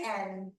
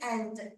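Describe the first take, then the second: First: The final D is dropped. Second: The final D is clearly articulated. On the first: "they say and" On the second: "they don't say and"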